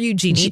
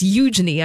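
First: The name is said a non-British way. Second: The name is said the British way. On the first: "or Eugenie" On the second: "I believe is how the British pronounce it"

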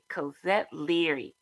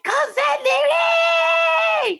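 First: The name is said at a soft volume. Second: The name is said at a very loud volume.

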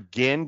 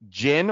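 First: The word starts with a hard G sound. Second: The word starts with a soft J sound. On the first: "I think it's a hard G" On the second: "like the drink"

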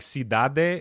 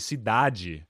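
First: The word is pronounced just as it is spelled. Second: The word is pronounced with changed, accented sounds. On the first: "is how it's spelled" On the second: "but they say"

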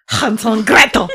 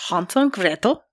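First: It is said in a harsher, more guttural accent. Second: It is said in a softer, Norwegian-sounding accent.

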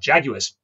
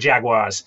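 First: Jaguars is said with a British pronunciation. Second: Jaguars is said with an American pronunciation. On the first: "Or Jaguars, if you're English" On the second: "In America, it's very much the Jaguars"

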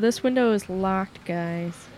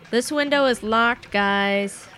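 First: It is said at normal, quieter volume. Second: It is said at a louder volume.

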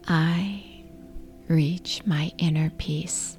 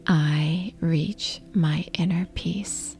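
Both takes have the same delivery.

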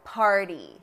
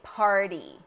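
First: The middle consonant is a quick, light flap. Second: The same.

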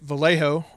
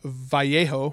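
First: The name is pronounced the English way. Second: The name is pronounced the Spanish way.

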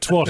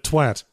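First: The word is said in a non-British way. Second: The word is said in a British way. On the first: The speaker calls it wrong. "They kept pronouncing it twat" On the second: The speaker calls it right. "instead of twat"

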